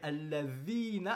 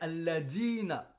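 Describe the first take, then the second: First: The middle consonant is a voiced th sound. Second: The middle consonant is a plain d sound. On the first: The speaker calls it right. "alladhina avec un dhal" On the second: The speaker calls it wrong. "ils remplacent le dha par le dal"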